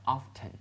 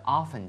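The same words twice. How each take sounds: First: "often" said with a sounded T, "off-ten"; T pronounced. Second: "often" said as "offen", T silent. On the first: Teacher shows how others read it, T clearly pronounced. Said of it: "的T发音了". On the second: Teacher gives the word before contrasting it, silent-T pronunciation. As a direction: leave the T out of "often". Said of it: "他们读成often". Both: Shown as a demonstration.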